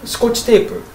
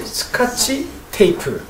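First: The second syllable has an 'o' vowel. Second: The second syllable has an 'a' vowel. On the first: This is how it is said in Japan. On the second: This is how it is said in Korea.

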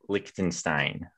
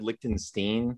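First: The name is said with a 'sh' sound. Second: The name is said without a 'sh' sound. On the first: This is how the country's name is usually said. "the country is usually Lichtenstein" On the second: This is how the family says its name. "my family's always said Lichtenstein"

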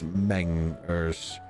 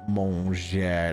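First: The name is said with an English-sounding pronunciation. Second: The name is said with a French-sounding pronunciation.

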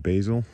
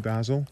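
First: Basil is said the North American way. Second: Basil is said in a non-North American way.

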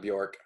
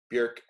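First: The vowel is a plain English 'o' sound. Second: The vowel is the rounded front umlaut sound. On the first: The speaker calls it wrong. "not Bjork. But people know her as Bjork here" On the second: The speaker calls it right. "technically Bjork. It should be Bjork"

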